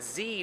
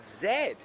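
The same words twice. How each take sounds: First: The letter is pronounced zee, American style. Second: The letter is pronounced zed, Canadian style. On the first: The speaker calls it wrong. "you're pronouncing it Z" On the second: The speaker calls it right. "not Z"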